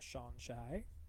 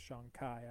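First: The middle consonant is not a K sound. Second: The middle consonant is a K sound. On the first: The speaker calls it wrong. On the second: The speaker calls it right.

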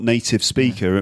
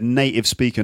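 First: The T in native is clearly pronounced. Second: The T in native becomes a glottal stop. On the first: "not native speaker" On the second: "So dropping the T"

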